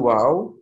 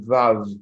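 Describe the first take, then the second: First: The name begins with a W sound. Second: The name begins with a V sound. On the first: This is the original pronunciation. "It's originally Wow" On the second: This is the pronunciation adopted where W was lacking. "in Germany they have the V, so then it becomes Vav"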